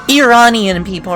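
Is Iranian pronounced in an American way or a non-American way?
non-American. Iranian is said with a non-American pronunciation. The speaker calls it right.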